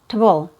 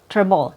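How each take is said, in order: First: The syllable has no R sound, only schwa. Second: The syllable has an R sound in it. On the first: "there's no R sound, so it's just a, the reduced vowel, schwa" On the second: "Sometimes you hear an R sound"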